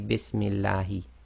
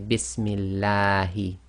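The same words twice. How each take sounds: First: The vowel after the lam is cut short. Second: The vowel after the lam is held long. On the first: The speaker calls it wrong. "You cannot say" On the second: The speaker calls it right. "it's going to be too long. That's why we normally say"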